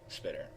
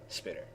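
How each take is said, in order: The two takes are said the same way.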